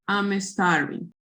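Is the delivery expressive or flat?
flat. It is read flatly, with little intonation. The speaker calls it wrong. "If you read in this way"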